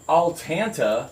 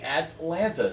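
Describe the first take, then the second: First: The L sound comes before the T. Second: The T sound comes before the L. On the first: The speaker calls it wrong. "You don't say Altanta" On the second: The speaker calls it right. "You say Atlanta"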